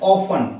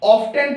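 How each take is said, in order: First: The t sound is left out. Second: The t sound is pronounced. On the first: The speaker calls it right. "इसको पढ़ेंगे हम ऑफन" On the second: The speaker calls it wrong. "इस शब्द को ऑफ्टन पढ़ते हैं"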